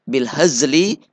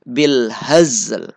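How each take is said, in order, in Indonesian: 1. Frasa itu berakhir dengan suku kata li penuh. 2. Frasa itu berakhir dengan l yang lembut, setengah.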